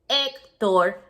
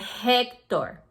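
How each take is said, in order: First: The first H is completely silent. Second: The first H is breathed out audibly. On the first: This is the Spanish way to say the name. "like the H is not even there" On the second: This is the English way to say the name. "in English, you have kind of whisper like"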